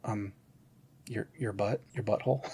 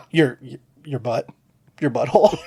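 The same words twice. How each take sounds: First: Soft, matter-of-fact hush; deadpan murmur. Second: Said through leftover laughter; laughing retelling. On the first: Kristen Wiig quietly answering the villain, deadpan. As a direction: say it quietly as if obvious. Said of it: "you just hear her kinda look at him and go". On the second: Host repeating the line to his cohost, laughing. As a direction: repeat the punchline while cracking up. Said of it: "I lost my shit over". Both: Retold or imitated.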